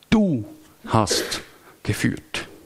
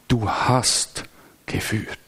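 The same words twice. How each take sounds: First: The word du carries the emphasis. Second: The word hast carries the emphasis. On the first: It was God alone who led, no one else. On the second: God has really led, many times already.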